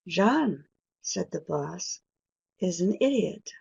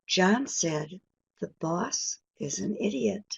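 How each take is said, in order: First: Pauses set off 'said the boss' from the rest. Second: It is said in one phrase without pauses.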